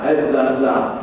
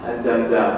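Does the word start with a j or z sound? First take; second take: z; j. First: The word starts with a z sound. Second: The word starts with a j sound. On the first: The speaker calls it right. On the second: The speaker calls it wrong.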